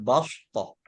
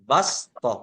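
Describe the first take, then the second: First: The s sound is emphatic and heavy. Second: The s sound is plain and light. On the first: The speaker calls it wrong. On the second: The speaker calls it right. "Jadi sin dibaca dengan sin"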